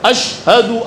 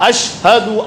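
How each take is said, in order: Both takes have the same delivery.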